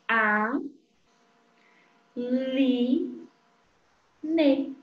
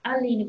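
First: ALINE as A, Li, Ne with long gaps; syllable by syllable. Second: Said in the usual way. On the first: Shown as a demonstration. Teacher showing syllable sounds, Aline split in three. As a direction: pause after each syllable: A, Li, Ne. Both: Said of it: "a sílaba forma o sonzinho da palavra".

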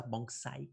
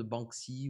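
First: Banksy said the English way, ending in "sigh"; English pronunciation. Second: Said in the usual way. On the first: Shown as a demonstration. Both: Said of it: "comme disent les Anglais".

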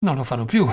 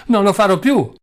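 First: Said in the usual way. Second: High, loud desperate cry. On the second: Acted. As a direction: scream it out, begging.

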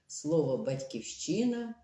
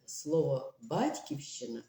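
First: «батьківщина» with stress on ЩИ, pitched up; stress on third syllable. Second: «батьківщина» with stress on БАТЬ, falling; stress on first syllable. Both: Shown as a demonstration. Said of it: "у них різні наголоси".

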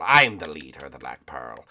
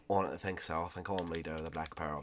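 First: Deep, emphatic pirate captain; Captain Barbossa. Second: Soft, low rival pirate voice; quietly dispute who leads the ship; Jack Sparrow. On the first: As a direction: assert command in a low pirate voice. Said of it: "I'm Captain Barbossa". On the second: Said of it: "Shut up, Jack Sparrow". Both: Pretend.

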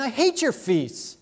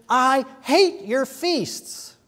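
First: High, quicker reading with hate stressed; God's declaration. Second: Slow, loud and heavy, hate stressed; God's slow declaration. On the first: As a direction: say it briskly, weight on hate. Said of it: "He's saying". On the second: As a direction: drag out "I hate your feasts" with weight on hate. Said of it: "and God says". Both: Acted.

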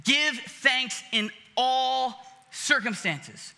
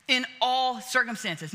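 First: Each word given weight, slow; slow emphatic quote. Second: Said in the usual way. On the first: Shown as a demonstration. Preacher slowly stressing Paul's words to the congregation. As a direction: lay "Give thanks in all circumstances." out slowly, word by word.

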